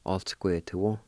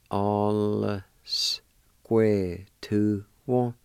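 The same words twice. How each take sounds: First: Said in the usual way. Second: "All square to one." drawn out very slowly; slow demo. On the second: Shown as a demonstration. Teacher modelling "All square to one." for students, very slow. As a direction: stretch every sound of "All square to one." for learners. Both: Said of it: "pronounce the L sound with the A like this".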